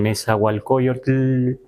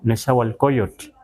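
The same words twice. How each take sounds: First: The final tl is long and exaggerated. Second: The final tl is short and soft. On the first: The speaker calls it wrong. "así como muy largo, no está bien dicho" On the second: The speaker calls it right. "así muy suave, muy suave"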